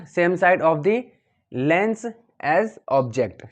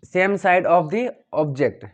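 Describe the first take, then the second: First: Calm repeat of the phrase, a little slow; teacher repeats the correct phrase, somewhat slow; slowish repeat. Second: Each word drawn out, very slow; the phrase students must memorise, very slow; very slow dictation. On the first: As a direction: say it again steadily for the class. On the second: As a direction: dictate it slowly so students say it exactly. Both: Shown as a demonstration. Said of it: "आपको बोलना है".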